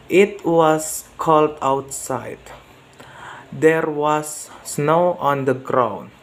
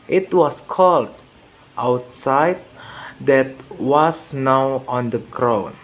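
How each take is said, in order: First: "cold outside" run together, falling, then a break; pause after outside. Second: "cold" falls and stops, "outside" rises into the next phrase; pause after cold. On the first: Learner practising pronunciation from a slide, pause after "outside". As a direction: end the sentence on "outside", pause, then "There was snow". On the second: Learner practising pronunciation from a slide, pause after "cold". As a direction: break after "cold", lift "outside" to lead on. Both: Shown as a demonstration. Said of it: "practice to my pronunciation".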